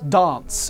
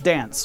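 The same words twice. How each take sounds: First: It has a broad, British-like vowel. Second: It has a flat American vowel.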